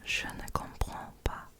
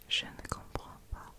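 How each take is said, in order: Both takes have the same delivery.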